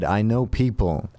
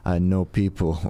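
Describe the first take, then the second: First: Put-on slow, neutral mid-Atlantic accent; no regional accent, mid-Atlantic and measured. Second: Lightly voiced Nigerian accent; a touch of a Nigerian accent, knowing. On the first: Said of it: "he said in a mid-Atlantic kind of non-regional dialect". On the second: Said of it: "I like how your Nigerian accent is".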